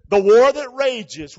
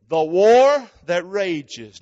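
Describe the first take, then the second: First: WAR stressed, slow and loud; slow emphatic. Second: WAR stretched very slowly, loud; very slow emphatic. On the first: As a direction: lean on WAR, drawn out. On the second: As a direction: drag out WAR with the crowd. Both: Shown as a demonstration. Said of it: "say it with me".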